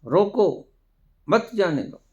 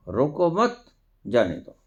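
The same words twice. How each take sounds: First: रोको alone and high, pause, then मत जाने दो; pause after रोको. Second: रोको मत run together, pause, then जाने दो; pause after मत. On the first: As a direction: break right after "रोको", keep "मत जाने दो" together. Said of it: "वही ठहराव का फर्क". ("रोको" के बाद ठहराव, फिर "मत जाने दो") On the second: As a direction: join "रोको मत", break before "जाने दो". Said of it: "ठहराव का फर्क". ("रोको मत" एक साथ, ठहराव, फिर "जाने दो") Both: Shown as a demonstration.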